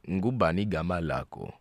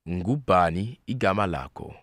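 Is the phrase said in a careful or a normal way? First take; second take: normal; careful. First: The phrase is said at a normal everyday pace. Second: The phrase is said slowly and carefully.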